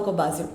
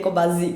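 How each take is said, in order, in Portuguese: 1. A consoante do meio é o som de S, sibilante. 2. A consoante do meio é o som de Z, vibrante. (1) "eu vivo falando com o som de S" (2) "É o som de Z"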